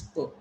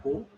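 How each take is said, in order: First: Po, said as a short, soft puh; correct weak syllable. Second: Po, said as POH with a full O; wrong syllable. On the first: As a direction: say "po" as an unstressed puh. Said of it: "It's po". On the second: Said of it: "It is not po". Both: Shown as a demonstration.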